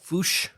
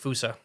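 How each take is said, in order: First: The word ends in a consonant sound. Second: The word ends in a vowel sound. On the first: This is the traditional local pronunciation. "traditionally, I believe in Madagascar, it's pronounced F O O S H" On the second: This is how many English speakers say it. "the double O sound with an A at the end"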